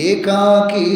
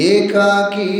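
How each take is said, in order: No difference in how they are said.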